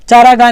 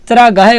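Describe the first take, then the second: First: चारा घा with a long आ in चारा and no final य, the mistaken way; wrong pronunciation. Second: चरा घाय with a short अ in चरा and a clear final य in घाय; correct pronunciation. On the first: Teacher showing students the wrong way, mistaken pronunciation. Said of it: "चारा घा नहीं होता". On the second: Teacher correcting students' common mistake, careful correct pronunciation. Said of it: "चरा घाय होता है". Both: Shown as a demonstration.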